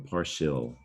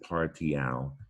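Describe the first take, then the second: First: The ending is said the usual English way. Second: The ending is said like the Latin root. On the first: The speaker calls it right. "We pronounce it partial" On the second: The speaker calls it wrong. "we don't pronounce it partial"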